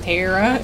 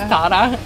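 First: The name is said with an English pronunciation. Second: The name is said with a Japanese pronunciation. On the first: This is the name as originally given. "my parents called me Tara" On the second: This is how people in Japan said the name. "in Japan, people couldn't pronounce Tara. So it was Tara"

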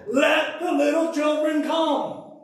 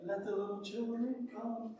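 First: It is said in a stern, emphatic voice. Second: It is said in a light, happy voice. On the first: An angry rebuke correcting the disciples. The speaker calls it right. "He's saying" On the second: A mild, friendly invitation. The speaker calls it wrong. "Jesus isn't saying"

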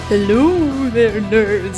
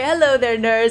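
First: It is said in a put-on spooky voice. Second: It is said in a normal speaking voice.

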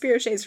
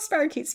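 First: The word has a spelling-based mispronunciation. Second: The word has its usual standard pronunciation. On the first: "who had only ever read them and never actually like heard the name pronounced" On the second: "I'm going to call spirochetes spirochets from now on"

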